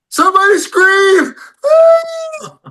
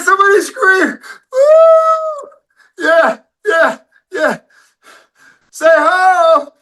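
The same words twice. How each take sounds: First: Shouted very high, whooping; crowd hype shout. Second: High, strained whooping shout; breathless crowd hype shout. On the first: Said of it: "Everybody goes". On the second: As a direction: shout it out of breath, half crying. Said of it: "I said". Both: Retold or imitated.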